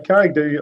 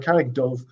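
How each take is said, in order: First: The name uses the northern Irish dialect pronunciation. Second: The name uses the southern Irish dialect pronunciation. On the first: "in the north it's Do" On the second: "In the south it's Dove"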